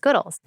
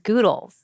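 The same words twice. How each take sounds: First: The first vowel is short, as in good. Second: The first vowel is long, as in noodles. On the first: "you obviously pronounce it as Goodles" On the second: "like noodles"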